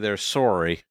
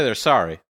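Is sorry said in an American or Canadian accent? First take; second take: Canadian; American. First: Sorry is said with a Canadian vowel. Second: Sorry is said with a general American vowel. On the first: "They say they're sorry" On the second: "They don't say they're sorry"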